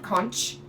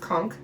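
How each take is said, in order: First: The word ends with a ch sound. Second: The word ends with a k sound. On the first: The speaker calls it wrong. "not conch" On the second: The speaker calls it right. "C H does make a k sound"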